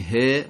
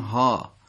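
First: The letter name ends in an 'e' vowel. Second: The letter name ends in an 'a' vowel. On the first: This is the Persian way of naming the letter. "ما میگیم ه" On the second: This is the Arabic way of naming the letter. "اونا میگن ها"

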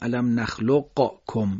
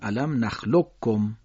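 First: The q is released separately with a bounce. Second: The q merges into a doubled k sound. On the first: The speaker calls it wrong. "نمیگیم علم نخلقکم، اینجور نمیگیم" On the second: The speaker calls it right. "قاف رو حذف میکنیم، کاف رو تشدید میدیم"

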